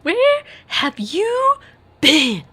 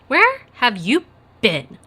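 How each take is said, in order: First: It is said in a Molly Weasley impression. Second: It is read in the speaker's plain voice.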